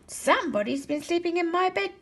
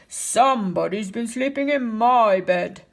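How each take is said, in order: First: It is said in a medium-sized voice. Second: It is growled in a big, deep voice. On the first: A mother bear is speaking. "Mama said in her medium-sized voice" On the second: A large father bear is speaking. "he growled in his great big voice"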